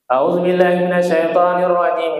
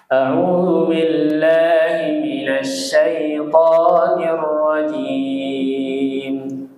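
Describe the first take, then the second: First: It is recited quickly and hurriedly. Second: It is recited slowly and unhurriedly. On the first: The speaker calls it wrong. "itu tidak tartil" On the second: The speaker calls it right. "Ini tartil Bapak Ibu"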